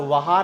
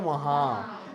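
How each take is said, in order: First: Said in the usual way. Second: वहाँ with nasalized final आ; वहाँ, held nasal last vowel; nasal ending. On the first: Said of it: "वहा नहीं होता है". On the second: Shown as a demonstration. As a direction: let the end of वहाँ ring in the nose. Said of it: "क्या होता है?".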